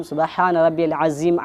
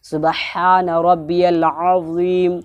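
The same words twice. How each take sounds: First: سبحان ربی العظیم with عظیم said as a plain ز sound; the common slip in عظیم; quick careless عظیم; mispronounced Azeem. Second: سبحان ربی العظیم slow, عظیم with a clear heavy ظ; slow careful recitation of سبحان ربی العظیم; correct Azeem. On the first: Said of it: "عظیم کرتے ہیں". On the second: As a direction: sound عظیم properly with the ظ. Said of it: "یہاں پر عظیم، وا ہے". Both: Shown as a demonstration.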